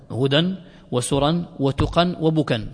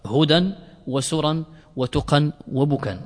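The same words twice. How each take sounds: The two takes are said the same way.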